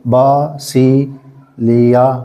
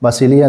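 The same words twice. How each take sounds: First: बा सी लिया split slowly into three beats; slow syllable drill. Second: Said in the usual way. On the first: Shown as a demonstration. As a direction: spell out बा सी लिया one slow syllable at a time. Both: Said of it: "बासिलिया देखें".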